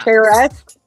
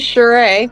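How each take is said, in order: First: The name is read out as it is spelled. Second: The name is said the French way. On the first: This follows the spelling of the name. The speaker calls it wrong. "that's how it's spelled" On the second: This is how the name really goes. The speaker calls it right. "but it is Sheree"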